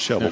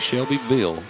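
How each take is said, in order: First: It is said in the local Tennessee way. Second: It is said in the careful outsider's way. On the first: This is how locals say it. The speaker calls it right. "It's Shelbyville" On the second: This is how people from elsewhere say it. The speaker calls it wrong. "We don't say Shelbyville down here"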